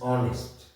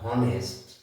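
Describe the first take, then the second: First: The word starts with a vowel sound. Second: The word starts with an h sound. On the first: The speaker calls it right. "এখানে আমরা হ উচ্চারণ করছি না।" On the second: The speaker calls it wrong. "This is not"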